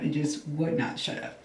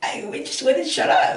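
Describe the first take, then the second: First: Softer, flat "would not" pressed word by word; stress on would not. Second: Much higher, louder exasperated cry of "wouldn't shut up"; exasperated outburst. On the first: Telling viewers how her mind would not stop, quiet firm stress. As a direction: drop down and lean on "would not". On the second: Telling viewers her racing thoughts wouldn't stop, exasperated loud. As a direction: blurt it out, fed up with racing thoughts. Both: Real, not acted. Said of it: "my thoughts just wouldn't shut the fuck up".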